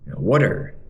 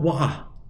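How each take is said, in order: First: It is spoken in an American accent. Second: It is spoken in a British accent. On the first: "Orang Amerika bilang water" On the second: "Orang U K mungkin bilang wah gitu"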